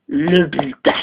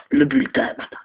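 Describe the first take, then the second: First: Said in the usual way. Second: Whispered reveal of le bulletin; dramatic hushed reveal. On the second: Acted. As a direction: breathe le bulletin as a secret. Reveals the report card.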